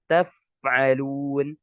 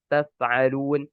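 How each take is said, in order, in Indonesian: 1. Bunyi f jelas dan terdengar tegas. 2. Bunyi f lemah dan tidak jelas. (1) "Harusnya apa? ... Harus jelas" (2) "tapi bacanya taf'alun"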